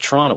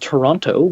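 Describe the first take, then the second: First: It starts with a ch sound, second T dropped. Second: The second T is clearly pronounced. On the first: "with a C H and no and no second T" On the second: "it's correctly pronounced Toronto"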